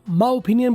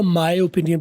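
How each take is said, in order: First: 'My' is shortened to a plain 'ma' sound. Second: 'My' is said in full with its glide. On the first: The speaker calls it wrong. "मा opinion बोलो" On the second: The speaker calls it right. "माई ज्यादा बेहतर रहेगा"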